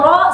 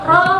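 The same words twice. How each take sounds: First: The sound is thick and full. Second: The sound is thin and light. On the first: The speaker calls it right. "suara ke atas" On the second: The speaker calls it wrong. "berarti dia masih tarkik ya"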